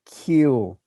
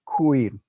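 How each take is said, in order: First: It starts with spread lips, a plain k. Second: It starts with rounded lips, like kw. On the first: "My lips are spread at the start" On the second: "if I start with my lips rounded"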